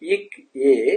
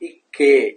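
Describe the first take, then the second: First: The two parts are said slowly and apart. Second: The two parts are said quickly and joined.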